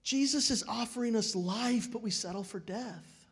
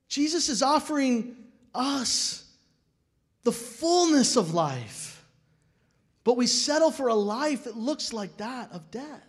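First: Said in the usual way. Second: Jesus is offering us drawn out slow and higher, Jesus stressed; slow emphatic repeat. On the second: Real, not acted. Pastor presses the point home to the congregation, slow and emphatic. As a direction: lean into Jesus, slowly, then press settle. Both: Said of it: "repeats line with more force".

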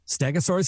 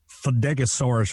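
First: Said in the usual way. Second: "Fedegosaurus" with a fumbled F opening; imitated mispronunciation. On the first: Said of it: "You mean Stegosaurus?". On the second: Voice actor imitating colleague botching a promo word, mispronounced. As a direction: stumble into "Fedegosaurus", losing the "St" at the front. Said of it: "I couldn't say the fucking word".

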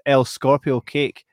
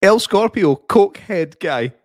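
First: Slow, careful reading of "El Scorpio Cake"; "El Scorpio Cake" read louder as a name; misread name. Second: High and loud "El Scorpio", then "coke head guy" very slow and spelled out; mocking correction with "coke head guy" slowed right down; corrected reading. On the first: Real, not acted. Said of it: "you thought the guy's name was El Scorpio Cake". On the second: Shown as a demonstration. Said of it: "try that one again".

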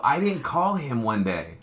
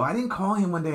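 First: Slow, weighty, leaning on didnt; slow emphatic. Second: Higher, lighter take with didnt stressed; higher retelling. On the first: Telling someone yesterday, slow and emphatic. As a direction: spell out didnt call him one day slowly. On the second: Retelling the missed call, pitched up and incredulous. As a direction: lift it up, quick and incredulous. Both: Retold or imitated. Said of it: "I go".

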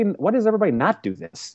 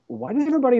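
First: Wondering why nobody else does it; puzzled questioning. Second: High, wondering question; puzzled questioning. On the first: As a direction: repeat the question, a bit less high. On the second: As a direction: ask it in disbelief, pitched way up. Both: Retold or imitated. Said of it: "And then I started questioning".

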